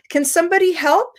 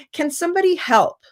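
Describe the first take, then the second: First: Bright, quick, higher "Can somebody help?"; teacher asking the class for help encouragingly; positive invitation. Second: Bright, higher "Can somebody help?" with a falling end; teacher inviting classmates to help without blame; positive invitation. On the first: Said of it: "the way that I ask this question". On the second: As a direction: ask the class warmly, no blame. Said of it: "So now it's more positive". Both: Shown as a demonstration.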